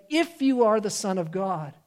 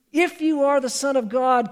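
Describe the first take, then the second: First: Said in the usual way. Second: Higher, challenging voice of the devil; pointed mock challenge from the tempter; taunting tempter. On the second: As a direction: lift it and throw it down as a dare. Repeated tempter challenge, raised.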